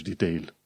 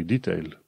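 First: "detail" stressed on the second syllable, de-TAIL; American second-syllable stress. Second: "detail" stressed on its first syllable, DEE-tail; British first-syllable stress. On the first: Teacher showing what to avoid, "detail" with end stress. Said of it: "nu zici detail". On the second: Teacher correcting learners, "detail" with first-syllable stress. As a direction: lean on the DE in "detail". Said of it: "trebuie să spui detail". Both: Shown as a demonstration.

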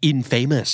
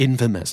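First: "infamous" read as in-FAY-mous; common misreading of infamous. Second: "infamous" as IN-fuh-mus, first syllable stressed. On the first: Host shows learners the common misreading, "infamous" as in-FAY-mous. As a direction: say "infamous" like in plus famous, stress on FA. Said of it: "หลายๆคนเห็นแล้วจะอ่านว่า infamous". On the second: Host teaches the correct reading, "infamous" stressed on IN. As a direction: hit the IN of "infamous", reduce the rest. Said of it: "stress พยางค์แรกนะครับ". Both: Shown as a demonstration.

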